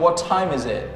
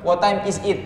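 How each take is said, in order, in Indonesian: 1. Huruf t di time mengeluarkan hembusan napas yang kuat. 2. Huruf t di time tidak mengeluarkan hembusan napas. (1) "lebih keren kalau saya bilang" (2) "dari kamu bilang"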